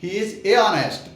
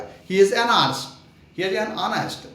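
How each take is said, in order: First: "He is a honest" said slowly, halting between a and honest; awkward "a honest" with a pause. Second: "an honest" linked smoothly, n running into honest. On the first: Teacher demonstrating the clumsy "a honest" to students, halting and slow. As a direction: stumble over "a honest" as if it's hard to say. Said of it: "तो थोड़ा सा रुक के बोलना पड़ेगा". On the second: Teacher showing students how easily "an honest" flows, smooth and slow. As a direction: glide from "an" into "honest" without a break. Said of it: "मतलब आप easily बोल लोगे उसको". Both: Shown as a demonstration.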